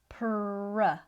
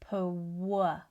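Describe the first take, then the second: First: The sound after P is a clear R. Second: The sound after P is like a W. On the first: The speaker calls it right. "make sure your lower lip is not moving" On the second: The speaker calls it wrong. "not pw"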